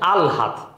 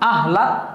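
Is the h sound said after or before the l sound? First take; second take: after; before. First: The h sound comes after the l sound. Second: The h sound comes before the l sound. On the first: The speaker calls it right. "শব্দ হচ্ছে আলহাদ" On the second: The speaker calls it wrong. "কিন্তু শব্দটা আহলাদ না"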